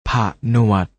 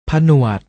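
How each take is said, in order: First: ผะหนวด split as ผะ, short pause, หนวด; ผะหนวด with a clear break after a short ผะ; syllable-by-syllable reading. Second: Said in the usual way. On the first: Shown as a demonstration. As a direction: sound out ผะหนวด in two separate syllables. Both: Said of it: "อ่านว่า".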